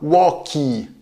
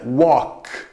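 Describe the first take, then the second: First: An extra vowel sound follows the final consonant. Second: The word ends abruptly on the voiceless consonant. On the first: The speaker calls it wrong. "cuidado para não pronunciar walkie" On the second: The speaker calls it right. "leve fechamento das pregas vocais, não tem de fato sonoridade"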